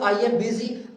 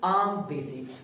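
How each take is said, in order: First: I am is said as two full words. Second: I am is shortened into one syllable. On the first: "contracted form for example हम कहते हैं आई एम" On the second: "ये जो आम है ये आई एम का क्या है, कंट्रैक्टेड फॉर्म है"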